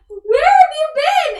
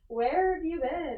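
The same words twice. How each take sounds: First: It is said in an excited tone. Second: It is said in a stern tone.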